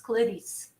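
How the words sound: European Portuguese accent with a reduced first vowel.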